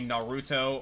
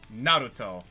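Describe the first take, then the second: First: The stress is on the second syllable. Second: The stress is on the first syllable. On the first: The speaker calls it wrong. "a lot of people say" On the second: The speaker calls it right. "the proper pronunciation oftentimes is"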